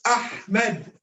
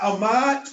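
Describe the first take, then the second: First: "Ahmed" as AH-med, breathy H before the M; correct Ahmed, H sounded. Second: "Ahmad" as a-MAA, no H and a long second vowel; wrong Ahmad, H dropped. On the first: Teacher corrects the name for a student, clear H in Ahmed. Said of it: "it's Ahmed". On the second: Teacher shows a student the wrong name, H-less Ahmad. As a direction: leave the H out of "Ahmad". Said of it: "not Ahmad". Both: Shown as a demonstration.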